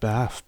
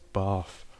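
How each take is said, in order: First: Bath is said in a non-southern accent. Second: Bath is said in a southern accent. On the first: This is how it is usually pronounced. "I'm sure it's pronounced Bath" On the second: This is how locals in the south would say it. "people down would have pronounced it as Bath"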